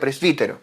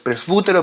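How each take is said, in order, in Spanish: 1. La vocal después de presb es un sonido 'ee'. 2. La vocal después de presb es un sonido parecido a 'oo'.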